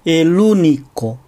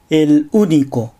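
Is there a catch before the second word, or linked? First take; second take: linked; catch. First: The words link smoothly with no glottal catch. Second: A glottal catch comes before the second word. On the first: The speaker calls it right. "音節の区切りを正しくとって" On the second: The speaker calls it wrong. "母音で始まる単語の最初に正門閉鎖を入れる"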